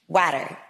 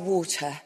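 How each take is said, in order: First: The word is said with an American accent. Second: The word is said with a British accent. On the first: "as an American, I say it like water" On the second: "I was playing a British person in this movie, and he did not laugh at me when he taught me how to say water"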